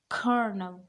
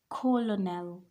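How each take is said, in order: First: No L sound is pronounced in the middle. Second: An L sound is pronounced in the middle. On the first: The speaker calls it right. "There is no L in the middle" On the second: The speaker calls it wrong. "This is not colonel"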